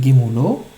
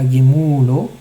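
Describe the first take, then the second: First: "Gemulo" short "mu", rising onto "lo"; final-syllable stress. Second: "Gemulo" with long loud "mu"; wrong penultimate stress. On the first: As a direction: put the weight on "lo" of "Gemulo". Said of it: "Gemulo et Milera". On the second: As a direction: stretch the middle of "Gemulo". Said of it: "c'est pas Gemulo". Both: Shown as a demonstration.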